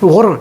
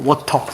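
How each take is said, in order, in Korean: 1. 미국식 억양, t를 r처럼 튕겨서 발음. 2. 영국식 억양, t를 또렷하고 분명하게 발음. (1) "이상하잖아" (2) "그냥 워터예요"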